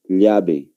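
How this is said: It is said with a Bolivian accent. "Y nosotros, ¿cómo pronunciamos?"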